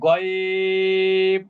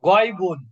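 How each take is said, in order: First: The word stops on a bare consonant. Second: The word ends in a vowel plus n. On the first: The reciter stops on this word. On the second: The reciter continues without stopping.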